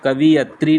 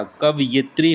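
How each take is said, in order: First: कवियत्री said kavi-yat-ri, with i after v; the wrong form कवियत्री, vi before yat; wrong spelling-pronunciation. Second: कवयित्री said kav-yit-ri, with yi after v; the right form कवयित्री, kav then yit; correct pronunciation. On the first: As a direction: say कवियत्री as the common mistake. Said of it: "कवियत्री नहीं होता". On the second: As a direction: say कवयित्री carefully as the correct word. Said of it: "कवयित्री होता है". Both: Shown as a demonstration.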